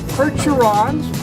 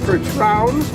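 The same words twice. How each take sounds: First: The word is said with English sounds. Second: The word is said with French sounds.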